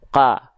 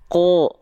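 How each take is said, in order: First: The vowel sounds like a thin A. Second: The vowel sounds like a thick O. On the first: The speaker calls it wrong. "bukan ka, bukan vokal A kan" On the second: The speaker calls it right. "tapi vokal O"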